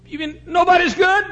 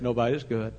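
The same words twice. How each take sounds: First: High, loud retold disbelief; incredulous. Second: Said in the usual way. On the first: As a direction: blurt it out as a shocked question. Woman reacts in disbelief.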